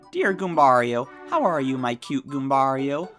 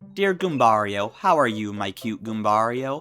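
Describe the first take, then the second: First: It is read in an imitated grandma voice. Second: It is read in his normal voice.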